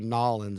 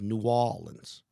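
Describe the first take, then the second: First: The name is squeezed into two syllables. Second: The name is said in full, local style.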